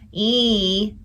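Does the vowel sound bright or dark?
bright. The vowel is bright with a narrow throat. The speaker calls it wrong. "my e wasn't an e"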